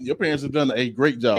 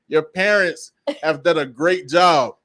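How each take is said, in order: First: It is said at a normal conversational volume. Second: It is said noticeably louder and more forcefully.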